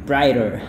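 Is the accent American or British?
American. It is said in an American accent, with r. "Kalau gaya Amerika"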